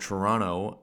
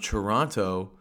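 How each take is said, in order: First: The name is pronounced in the ordinary, casual way. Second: The name is pronounced in an unusual, exaggerated way. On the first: The speaker calls it right. "as any normal person would say it" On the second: The speaker calls it wrong. "I don't know why I'm pretending to pronounce it weirdly"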